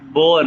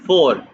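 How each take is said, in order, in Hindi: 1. शब्द b की आवाज़ से शुरू होता है। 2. शब्द f की आवाज़ से शुरू होता है। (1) "बोर नहीं है" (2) "फोर स्टेलुंग बोलो भाई"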